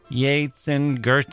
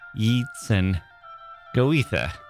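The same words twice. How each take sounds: First: The names get their standard, established pronunciation. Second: The names are sounded out as they are spelled. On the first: The speaker calls it right. "instead of Yeats and Goethe" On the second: The speaker calls it wrong. "it was Yeats and Goethe"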